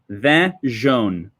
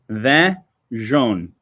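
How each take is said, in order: First: The name is said with a French pronunciation. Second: The name is said with a French pronunciation.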